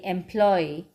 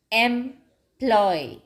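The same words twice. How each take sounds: First: Said in the usual way. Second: "employ" in two parts, em, ploy; syllable break. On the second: Shown as a demonstration. Teacher counting syllables for children, "employ" broken in two. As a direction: pause mid-word in "employ", each syllable drawn out. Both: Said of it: "only two syllables".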